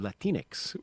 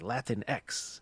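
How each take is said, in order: First: The final X syllable is unstressed and blended in. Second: The final X syllable is stressed and set apart. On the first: The speaker calls it right. "has a little more mellifluous sound to it" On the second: The speaker calls it wrong. "who really lean into the X. They say Latin X"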